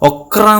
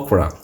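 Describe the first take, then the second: First: Each letter is sounded out with heavy stress. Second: The word is said smoothly without extra stress. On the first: The speaker calls it wrong. "okra okra എന്നായി പോണ്ട കേട്ടോ" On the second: The speaker calls it right. "ഒക്രയ്ക്ക് എന്താ പറയുക"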